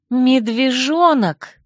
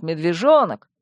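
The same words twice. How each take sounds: First: Slow, higher-pitched mocking echo; indignant, drawn-out quoting; pointed echo. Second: Said in the usual way. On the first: A narrator's reading. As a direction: throw the word back at him, stretched out. Indignantly echoes his word back.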